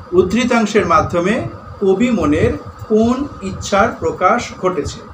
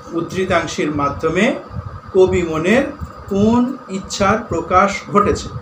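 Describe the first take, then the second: Both takes have the same delivery.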